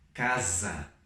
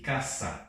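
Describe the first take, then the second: First: The middle consonant is a buzzing z sound. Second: The middle consonant is a hissing s sound. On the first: This is the Portuguese pronunciation. "nós falamos aquele som Z" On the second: This is the Spanish pronunciation. "em espanhol sempre vai ser sábio e caça, como se fosse dois S"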